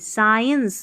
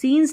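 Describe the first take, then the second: First: The first vowel sounds like 'eye'. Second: The first vowel sounds like 'ee'. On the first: The speaker calls it right. "साइंस ऐसे पढ़ना है" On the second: The speaker calls it wrong. "अब इसको सीन्स नहीं"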